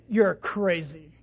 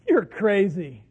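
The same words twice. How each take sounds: First: It is said in a harsh, insulting tone. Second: It is said in a warm, affectionate tone. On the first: It is meant as an insult. "You see the tone, the face" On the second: It is meant lovingly, with no offense. "And it's done in love. It's done with no offense"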